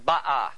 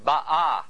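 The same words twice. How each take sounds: First: The stress is on the first syllable. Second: The stress is on the second syllable. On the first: The action happened in the past. The speaker calls it wrong. "It is not pronounced Ba'ah" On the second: The action is happening in the present. The speaker calls it right. "in this case, the accent is on the second syllable"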